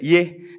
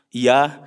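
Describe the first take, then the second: First: The word ends in an e vowel. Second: The word ends in an a vowel. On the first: "kalau Jakarta mah iye kan gitu ya" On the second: "Kalau Indonesia kan fathah tuh biasa"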